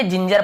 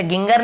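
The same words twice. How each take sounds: First: जिंजर with both Gs as J; soft-G pronunciation. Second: गिंगर with both Gs hard; hard-G mispronunciation. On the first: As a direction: say जिंजर with "j" sounds. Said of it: "जिंजर पढ़ेंगे". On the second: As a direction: say गिंगर with "g" as in gun. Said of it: "ऐसे गिंगर नहीं पढ़ेंगे". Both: Shown as a demonstration.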